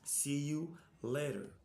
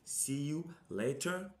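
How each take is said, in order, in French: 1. Il est prononcé avec un accent britannique. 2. Il est prononcé avec un accent britannique.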